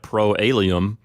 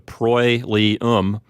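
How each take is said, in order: First: The two vowels are said as separate sounds. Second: The two vowels blend into one diphthong. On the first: The speaker calls it wrong. "they're not pronounced separately like proalium" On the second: The speaker calls it right. "They get pronounced together. So proilium is how you pronounce that word"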